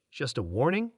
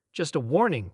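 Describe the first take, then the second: First: "just a warning?" rising on "warning"; questioning. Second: "Just a warning" falling on "warning"; confirming. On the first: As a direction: end "warning" on an upturn, as a disbelieving question. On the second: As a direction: drop the tune on "warning" to confirm it. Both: A narrator's reading. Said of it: "Krell confirmed".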